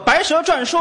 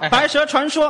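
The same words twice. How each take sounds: First: 传 is read zhuàn, with a falling tone. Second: 传 is read chuán, with a rising tone. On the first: A snake talks while going round in circles. The speaker calls it wrong. "这蛇画的圈聊" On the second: The speaker calls it right. "在这儿是多音字儿"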